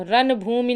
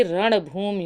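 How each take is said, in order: First: रणभूमि with dental n, "ranbhoomi"; wrong form. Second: रणभूमि with retroflex ṇ; correct form. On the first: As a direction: flatten the ण of रणभूमि to plain n. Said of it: "रणभूमि नहीं होता". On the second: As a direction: curl the tongue for the ण of रणभूमि. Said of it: "बल्कि रणभूमि होता है". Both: Shown as a demonstration.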